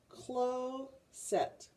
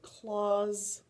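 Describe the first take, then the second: First: The first vowel is long, like in 'close'. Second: The first vowel is short, like in 'clock'. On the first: The speaker calls it wrong. "try it the long way first" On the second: The speaker calls it right. "That makes a lot more sense"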